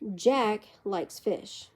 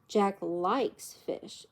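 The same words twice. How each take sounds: First: The stress falls on the word Jack. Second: The stress falls on the word likes. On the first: Another person does not like fish. "John doesn't" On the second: It is false that he dislikes it. "It's not true that he doesn't like it"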